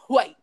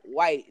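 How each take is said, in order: First: It starts with a breathy hw sound. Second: It starts with a plain w sound. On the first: "They be like, ... like you hear the whole shit" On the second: "And I just be like"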